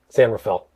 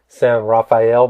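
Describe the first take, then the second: First: The name is said with English pronunciation. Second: The name is said with Spanish pronunciation. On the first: This is how the locals say it. "everybody up there just says San Rafael" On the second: This is the original name the city was given. "the Spanish named San Rafael"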